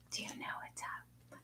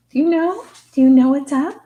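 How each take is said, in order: First: Soft breathy whisper of Do you know what's up; secretive hushed repeat; whispering the question to the dog. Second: Put-on much higher, loud baby voice; excited cooing at the dog; loud baby talk to the dog. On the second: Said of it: "I baby talk with the animals a little bit". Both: Shown as a demonstration.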